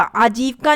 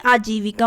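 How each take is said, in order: First: आजीविका said as aajivkaa; wrong form. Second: आजीविका as aa-ji-vi-kaa; correct form. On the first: Teacher showing the missing vowel, आजीविका as aajiv-kaa. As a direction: drop the i after v in आजीविका. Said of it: "आजीविका नहीं". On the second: Teacher restoring the vowel, आजीविका in four syllables. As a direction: sound the vi in आजीविका. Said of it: "आजीविका होता है". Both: Shown as a demonstration.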